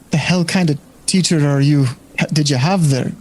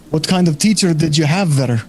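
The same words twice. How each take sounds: First: Put-on bar patron in an accidental light Scottish accent; slipped Scottish accent. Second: Put-on the bar patron redone without the Scottish accent; corrected patron accent. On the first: Game master voicing the bar patron, wrong Scottish accent slipping in. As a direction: let a Scottish lilt creep into the patron's line by mistake. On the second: Game master redoing the patron's question, Scottish accent dropped. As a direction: drop the Scottish lilt and retake the patron's line. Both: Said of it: "Oh, wrong accent".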